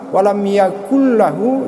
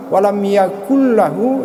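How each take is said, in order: First: The n merges into the following l sound. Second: The n merges into the following l sound.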